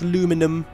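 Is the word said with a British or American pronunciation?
American. It is said with an American pronunciation. The speaker calls it wrong. "What's aluminum?"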